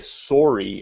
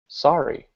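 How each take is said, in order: First: Sorry is said in a Canadian accent. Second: Sorry is said in an American accent. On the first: "we actually say sorry" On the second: "the way Americans say it"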